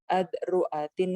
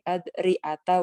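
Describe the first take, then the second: First: The word ends in an i vowel plus n. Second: The word ends in a bare a vowel. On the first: "bikasrita ma'at tanwin" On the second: "bi fathha ma adami tanwin"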